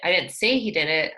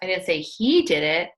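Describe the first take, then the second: First: The stress falls on the word say. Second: The stress falls on the word he. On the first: It was only suggested, not stated. "I just said maybe he did it" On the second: Someone else did it. "Someone else did"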